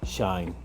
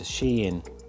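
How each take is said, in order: First: It is said as one syllable, rhyming with 'line'. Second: It is said as two syllables, 'she-in'. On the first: It names a person. "you'd pronounce it as Shine" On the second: It names the shopping website. "So separated into two"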